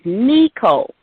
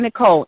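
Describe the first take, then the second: First: The first syllable sounds like 'knee'. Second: The first syllable sounds like 'nick'. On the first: "It was always Nicole, like me, K N E E" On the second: "just regular and plain"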